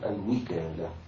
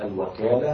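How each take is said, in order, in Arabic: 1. بعد الحرف الأول حركة 'i'. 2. بعد الحرف الأول حركة 'a'. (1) "وكسرها" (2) "بفتح الواو"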